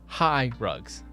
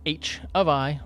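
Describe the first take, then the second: First: The first part is said as the word high. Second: The first part is spelled out letter by letter. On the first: "or High Rugs" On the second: "it can be pronounced H of I"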